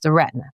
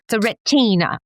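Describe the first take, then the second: First: It is said in the speaker's plain accent. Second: It is said in a British accent.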